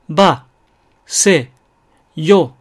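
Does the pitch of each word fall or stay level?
falling. Each word starts high and falls slightly. "高いところから始まって少し落ちる"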